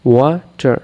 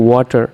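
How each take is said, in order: First: ওয়াটার broken into two beats, ওয়া and টার; split into syllables. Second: Said in the usual way. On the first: Shown as a demonstration. Teacher showing students two syllables, ওয়াটার split in two. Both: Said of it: "দুইটি syllable আছে".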